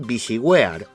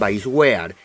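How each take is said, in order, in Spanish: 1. La primera parte suena como 'visi'. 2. La primera parte suena como 'vice'.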